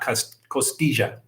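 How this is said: The double L is said like a J. The speaker calls it right. "I will say it like the Colombians do"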